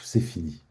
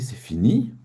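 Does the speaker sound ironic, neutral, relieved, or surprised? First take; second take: relieved; surprised. First: It is said in a relieved way. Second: It is said in a surprised way. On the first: "Ou alors soulagé?"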